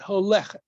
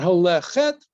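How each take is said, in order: First: The stress falls on the second-to-last syllable. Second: The stress falls on the last syllable. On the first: The speaker calls it right. "but holechet. ... the accent shifts ... to the next to last syllable" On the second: The speaker calls it wrong. "It's not holechet"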